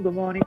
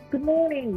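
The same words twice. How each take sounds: First: The greeting sounds flat and routine. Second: The greeting sounds warm and happy. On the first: The greeting is said only out of social habit. "you don't mean it" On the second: The speaker is very glad to see the listener. "meaning look how great to see you"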